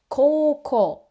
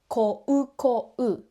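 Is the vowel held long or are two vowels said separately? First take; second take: long vowel; separate vowels. First: A single vowel sound is held long instead. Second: Two separate vowel sounds are pronounced in each syllable. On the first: The speaker calls it right. "We say" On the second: The speaker calls it wrong. "is not pronounced as"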